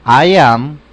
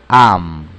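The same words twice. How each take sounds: First: "I am" louder, both words clear. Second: "am" lower, clipped short form. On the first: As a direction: model "I am" loudly for students. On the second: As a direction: drop to a short low "am". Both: Shown as a demonstration. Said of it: "quiero asegurarme que lo escuchen correctamente".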